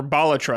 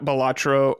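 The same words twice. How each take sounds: First: "Balatro" stressed on the first syllable, BAH-luh-tro; "Balatro" with a full first vowel and reduced middle; corrected pronunciation. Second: "Balatro" stressed on the middle syllable, buh-LAH-tro; "Balatro" with a reduced first vowel and long LAH; alternative pronunciation. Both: Shown as a demonstration. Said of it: "that's how you actually say it".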